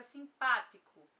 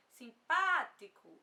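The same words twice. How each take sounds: First: Said in the usual way. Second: Simpático said slowly and louder, stress on the syllable pá; slow model word. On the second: Shown as a demonstration. Teacher modelling Simpático for students, slow and stressed on pá. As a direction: spell out Simpático slowly, leaning on pá. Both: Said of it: "eu vou falar a palavra simpático".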